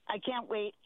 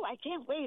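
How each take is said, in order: First: It sounds urgent and serious. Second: It sounds gushing and excited.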